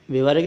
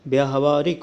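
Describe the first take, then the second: First: व्यवहारिक run together as "be-vaa-rik"; short first vowel in व्यवहारिक; wrong form. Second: Long "yaa" opening व्यावहारिक; correct form. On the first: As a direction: say व्यवहारिक with a short opening syllable. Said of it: "नहीं होता". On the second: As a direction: spell out व्यावहारिक syllable by syllable. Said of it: "होता है". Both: Shown as a demonstration.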